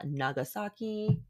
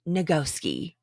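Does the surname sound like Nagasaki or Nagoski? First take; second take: Nagasaki; Nagoski. First: The name is said like the city Nagasaki. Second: The name is said as Nagoski, with three syllables. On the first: The speaker calls it wrong. "I've been saying it wrong the whole time" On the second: The speaker calls it right. "It's Nagoski"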